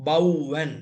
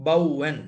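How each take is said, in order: The two takes are said the same way.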